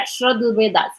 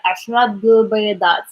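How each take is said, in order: First: The phrase is spoken fast. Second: The phrase is spoken slowly. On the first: "But faster" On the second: "If I speak it like slowly"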